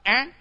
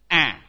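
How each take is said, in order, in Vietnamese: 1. Nguyên âm được phát với thanh điệu đi lên. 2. Nguyên âm được phát với thanh điệu thấp đi xuống. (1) "dấu sắc" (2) "dấu quyền"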